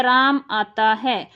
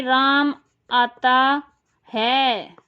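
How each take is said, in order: First: Said in the usual way. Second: Ram आता है drawn out, है set apart after a pause; stress on है. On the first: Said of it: "Ram आराम से बोल दे". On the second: Shown as a demonstration. Teacher demonstrates sentence stress to students, stress on है. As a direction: pause before है and lean on it. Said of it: "है पे ज़्यादा प्रयोग कर लिया बल का".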